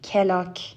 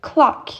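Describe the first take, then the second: First: A vowel is inserted between the first two consonants. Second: The first two consonants are joined with no vowel. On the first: The speaker calls it wrong. "I don't say clock" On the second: The speaker calls it right. "هیچ vowelی بینشون نیست"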